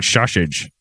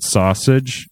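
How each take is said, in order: First: "sausage" said as shashage, sh for both s; mispronounced sausage. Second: Said in the usual way. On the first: Retold or imitated. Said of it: "I could not say the word sausage". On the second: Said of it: "I kept saying sausage".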